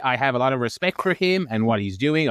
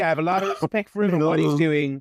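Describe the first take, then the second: First: It is read in his ordinary speaking voice. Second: It is read in a put-on imitation voice.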